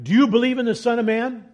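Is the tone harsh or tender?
harsh. It sounds harsh and confrontational.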